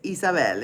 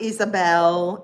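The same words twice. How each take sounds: First: The name is said with a Spanish pronunciation. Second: The name is said with an English pronunciation. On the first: The speaker calls it right. "it's Isabel in Spanish" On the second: The speaker calls it wrong. "Not Isabel"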